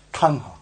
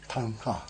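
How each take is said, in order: First: "tangha" with the t curled back; retroflex demo. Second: "Tangha" said softly with the t curled back; retroflex demo. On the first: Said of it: "So a retroflex is actually t". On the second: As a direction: repeat "Tangha" quietly with a retroflex t. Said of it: "curl the tongue back on the end". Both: Shown as a demonstration.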